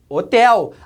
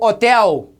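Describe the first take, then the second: First: The stress is on the last syllable. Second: The stress is on the first syllable. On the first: The speaker calls it right. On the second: The speaker calls it wrong.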